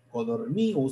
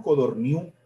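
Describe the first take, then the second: First: Codorniu said with stress on the i, as Codorníu. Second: Codorniu said with stress on the final u, as Codorniú. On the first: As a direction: put the weight on the i of Codorniu, not the u. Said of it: "sin el acento en la U ... sino en la I". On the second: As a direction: land the accent on the last syllable, Codorniu. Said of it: "nosotros lo pronunciamos Codorniu". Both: Shown as a demonstration.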